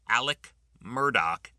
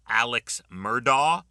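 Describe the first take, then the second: First: The first name ends with a 'k' sound. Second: The first name ends with a 'ks' sound. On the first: This is how the name is actually said. The speaker calls it right. "but it's Alec Murdoch" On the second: This is how most people say the name. The speaker calls it wrong. "Most people say"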